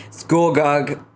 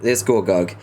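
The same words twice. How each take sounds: First: Gorgug said higher and punched; stress on Gorgug. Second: Said in the usual way. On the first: Shown as a demonstration. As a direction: hit Gorgug emphatically, higher. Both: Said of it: "Is it Gorgug?".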